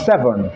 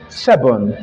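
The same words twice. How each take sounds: First: The middle consonant is a V sound. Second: The middle consonant is a B sound. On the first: "not seven" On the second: "He also said seven"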